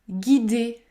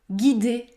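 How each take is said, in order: The two takes are said the same way.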